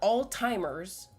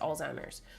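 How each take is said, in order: First: It is said with a T sound before the z. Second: It is said without a T sound before the z. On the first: The speaker calls it wrong. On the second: The speaker calls it right.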